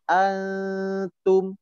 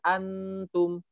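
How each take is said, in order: First: The n is muffled without the tongue touching. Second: The n is pronounced clearly with the tongue touching. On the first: The speaker calls it right. "Kurang lebih seperti ini. ... Jadi bunyinya samar" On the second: The speaker calls it wrong. "tidak dibaca antum"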